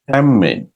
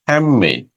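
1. d ধ্বনিটি m ধ্বনিতে পরিণত হয়। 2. d ধ্বনিটি m ধ্বনিতে পরিণত হয়।

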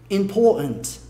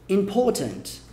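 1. Tanto o R quanto o T são omitidos. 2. O R é omitido; o T é pronunciado. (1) "Você come o R e também come o T" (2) "caso a sua pronúncia seja mais britânica"

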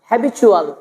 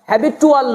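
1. 'ual' এর আগের ব্যঞ্জনটি 'ch' ধ্বনি। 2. 'ual' এর আগের ব্যঞ্জনটি সাধারণ 't'। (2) "হ্যাবিটুয়াল না"

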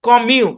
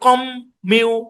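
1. m ধ্বনিটি শুধু একবার বলা হয়। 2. m ধ্বনিটি দুইবার বলা হয়। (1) "আমাকে বলতে হবে এইভাবে" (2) "এভাবে বলা যাবে না, দুইটা ম দিয়ে বলা যাবে না"

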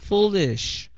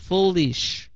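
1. Âm li được phát âm rõ ràng trước sh. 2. Âm li được phát âm rõ ràng trước sh.

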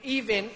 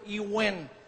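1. Tunog V ang gitnang katinig. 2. Tunog W ang gitnang katinig.

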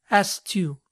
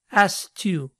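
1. El sonido K en asked se omite. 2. El sonido K en asked se omite.

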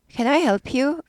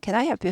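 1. 'you'에서 끝에 목소리가 올라가요. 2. 'you'에서는 목소리가 꽤 평평하게 유지돼요. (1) "이렇게 올라가죠" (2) "유가 잘 안 올라가네"

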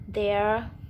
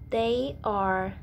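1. Được nén thành một âm tiết như 'there'. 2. Được nói thành hai từ riêng biệt, đầy đủ.

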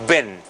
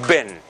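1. La vocal es corta y relajada. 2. La vocal es corta y relajada.

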